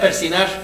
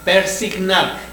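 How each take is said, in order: First: The word has no g sound before the n. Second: The word has a g sound before the n. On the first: The speaker calls it wrong. "cuando realmente no es correcta esa palabra" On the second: The speaker calls it right. "Lo correcto es persignar"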